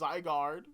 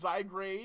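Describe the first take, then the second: First: The second part sounds like 'guard'. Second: The second part sounds like 'grade'. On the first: The speaker calls it right. "but it's Zygarde" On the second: The speaker calls it wrong. "I always read it as Zygrade"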